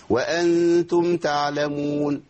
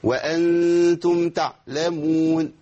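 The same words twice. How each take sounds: First: Faulty recitation, ع dropped from تعلمون; missing ayn. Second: Chanted تعلمون with the ع squeezed shut; faulty, harsh throat stop on the ع in تعلمون; over-hard ayn. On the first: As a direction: slowly chant تعلمون as ta-lamun. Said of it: "دي ما فيش عين خالص". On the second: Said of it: "دي عين شديدة جدًا". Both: Shown as a demonstration.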